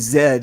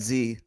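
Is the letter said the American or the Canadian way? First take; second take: Canadian; American. First: The letter is said the Canadian way. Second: The letter is said the American way. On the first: This is how it is said in Canada. The speaker calls it right. "you have to say Z" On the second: This is how it is said south of the border. The speaker calls it wrong. "and not Z"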